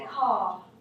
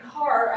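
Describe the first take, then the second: First: The R sound at the end is dropped. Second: The R sound at the end is pronounced. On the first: "the way you might if you're going to vote 2" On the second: "Instead of saying car"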